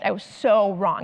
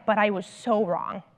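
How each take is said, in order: First: Said in the usual way. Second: Heartfelt admission. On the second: Retold or imitated. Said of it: "he's like".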